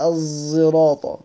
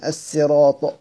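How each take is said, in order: First: الزراطة slowly, first consonant blended towards z; الزراطة as "az-ziraata", neither pure zay nor pure seen; ishmam reading. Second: الصراط with a thin s; reading with seen. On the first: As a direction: say الزراطة with a voiced sound between s and z. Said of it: "لا هو زاي صافية ولا سين صافية". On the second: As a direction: pronounce الصراط as "as-siraata", seen not saad. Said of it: "إن هي بقراءة السين". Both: Shown as a demonstration.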